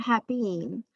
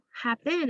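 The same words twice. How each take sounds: First: 'happen' ending in a drawn-out 'een'; long E mispronunciation. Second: Said in the usual way. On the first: Shown as a demonstration. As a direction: say 'happen' as 'hap-EEN'. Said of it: "not happen". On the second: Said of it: "is something I've heard before".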